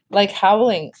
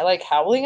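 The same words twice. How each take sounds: First: Said in the usual way. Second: "like howling" with a questioning rise at the end; questioning tune. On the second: A narrator's reading. Child asking sister about the dog, "howling" rising as a question. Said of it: "I asked".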